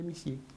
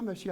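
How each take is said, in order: First: The first vowel sounds like 'ee'. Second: The first vowel sounds like 'uh'.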